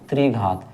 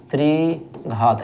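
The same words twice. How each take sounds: First: Said in the usual way. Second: त्रिघात stretched very slowly, every syllable long; slowly drawn out. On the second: Shown as a demonstration. Teacher to students, slowly drawing out त्रिघात. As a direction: draw out त्रिघात for the class to repeat.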